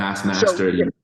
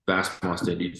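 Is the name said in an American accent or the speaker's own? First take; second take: American; own accent. First: The name is said in an American accent. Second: The name is said in his own accent.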